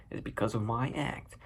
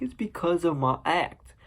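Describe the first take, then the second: First: Subdued excuse. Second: Higher, slower, rising at the end; whiny excuse. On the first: Arthur repeating his excuse about the gun, subdued. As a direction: repeat it under your breath. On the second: Arthur explaining the gun to his bosses, whiny excuse. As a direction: plead it high and drawn out. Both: Retold or imitated.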